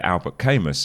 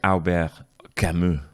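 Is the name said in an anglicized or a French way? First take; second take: anglicized; French. First: The name is said in an anglicized way. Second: The name is said in a French way. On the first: The speaker calls it wrong. "when I murdered the name" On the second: The speaker calls it right. "by the way, it's Albert Camus"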